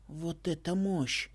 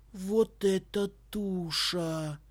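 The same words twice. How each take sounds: First: Very slow, amazed; awed. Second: Very slow, amazed exclamation; drawn out in awe; awed. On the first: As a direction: savour it in awe. Boy amazed. (медленно, с восхищением) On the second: Boy amazed at airship. (изумлённо, медленно) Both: A narrator's reading.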